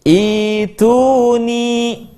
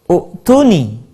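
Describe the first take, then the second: First: The word begins with an 'i' vowel. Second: The word begins with an 'u' vowel. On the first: This is how the verse is actually recited. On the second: This is what the general rule would give.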